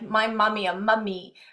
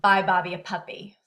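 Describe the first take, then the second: First: The sentence sounds heavily nasal throughout. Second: The sentence sounds clear, without nasality. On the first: "comes out like" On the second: "then it comes out correct as"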